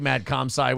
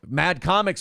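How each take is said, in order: First: The second word sounds like 'com-sci'. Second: The second word sounds like 'comics'. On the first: The speaker calls it right. "It's Mad Comsci" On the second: The speaker calls it wrong. "you've said it wrong for every time forever"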